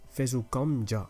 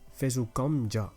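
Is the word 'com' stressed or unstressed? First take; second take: stressed; stressed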